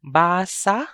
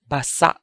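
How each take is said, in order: First: Basa with a drawn-out BAA, open ending; long first syllable in basa. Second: Basa with short ba and a cut-off sa; short, stopped basa. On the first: Teacher models the first word of a heteronym pair, basa with long BAA. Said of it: "The first word is". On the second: Teacher contrasts the second word of the pair, basa short and stopped. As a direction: say "basa" as ba-SA', stopping the last vowel short. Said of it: "more examples of heteronyms in Bisaya". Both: Shown as a demonstration.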